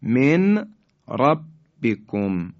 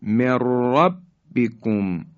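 First: من ربکم with clear n, then separate r; nun left unmerged. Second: Slow من ربکم as mirrabbikum, r trilled; nun merged into ra. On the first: Tajweed teacher showing letters before merging, sounded n in من ربکم. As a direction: say min, pause, rabbikum for من ربکم. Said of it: "نون ساکن". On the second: Tajweed teacher demonstrating idgham, long double r in من ربکم. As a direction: drop the n in من ربکم and roll the r. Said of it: "اصطلاح را ادغام شد". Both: Shown as a demonstration.

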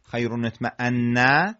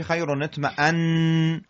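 First: اطمأن said with its final vowel, "atma'anna"; اطمأن ending "-anna", rising; unpaused form. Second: اطمأن stopped on a held "-annn"; pausal form. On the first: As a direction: release the doubled N of اطمأن into an "a". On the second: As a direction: drop the last vowel of اطمأن and hum the N. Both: Shown as a demonstration.

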